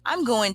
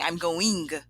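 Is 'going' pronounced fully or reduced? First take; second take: reduced; full. First: Going is reduced with a lazy schwa vowel. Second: Every sound in going is clearly pronounced. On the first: "we have that lazy schwa" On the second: "instead of saying I'm going"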